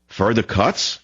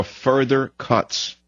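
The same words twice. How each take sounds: First: "Further cuts?" rising at the end; questioning echo. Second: Said in the usual way. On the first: Real, not acted. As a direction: throw "Further cuts?" back as a challenge. Echoes the quote as a question.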